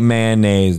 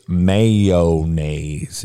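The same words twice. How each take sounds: First: It begins with a short 'man' sound. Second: It begins with a full 'may-o' sound. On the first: The speaker calls it wrong. "It ain't mayonnaise" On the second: The speaker calls it right. "You have to say mayo"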